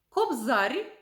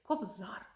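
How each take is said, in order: First: The final r is softened. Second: The final r is hard. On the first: This is the regional dialect form. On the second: This is the standard form.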